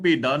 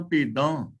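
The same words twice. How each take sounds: First: ਭੇਡਾਂ with an un-nasalised final "aa"; ਭੇਡਾਂ misread as "pe-daa"; wrong reading. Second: ਭੇਡਾਂ with a nasal final "aan"; ਭੇਡਾਂ as "pe-daan", ending through the nose; correct reading. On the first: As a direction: drop the nasal at the end of ਭੇਡਾਂ. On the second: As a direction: nasalise the last vowel of ਭੇਡਾਂ. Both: Shown as a demonstration. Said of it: "ਇਹਨੂੰ ਭੇਡਾਂ ਨਹੀਂ ਪੜਨਾ".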